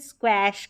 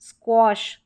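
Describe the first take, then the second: First: The vowel sounds like the a in ash. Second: The vowel sounds like the o in gosh. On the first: The speaker calls it wrong. "इसको क्वैश करके नहीं पढ़ सकते" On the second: The speaker calls it right. "यहाँ पर ए का औ उच्चारण हो रहा है"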